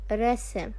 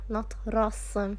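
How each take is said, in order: First: The s is the plain Arabic sin sound. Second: The s is the emphatic Arabic sad sound. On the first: The speaker calls it right. "It is rasm" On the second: The speaker calls it wrong. "if I replace the sin with a sad"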